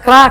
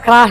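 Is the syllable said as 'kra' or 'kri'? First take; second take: kra; kra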